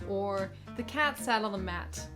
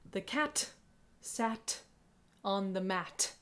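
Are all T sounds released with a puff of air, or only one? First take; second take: only one; all. First: Only one T is released with a puff of air. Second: Every T is released with a puff of air. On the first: The speaker calls it right. "Where only one is aspirated" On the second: The speaker calls it wrong. "If you always aspirate your T's, it'll sound like this"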